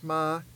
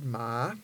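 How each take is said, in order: First: The word is said on a high tone. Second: The word is said on a rising tone. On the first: It means horse. "with the high tone means horse" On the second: It is a colloquial word for dog. "with the rising tone is colloquial for dog"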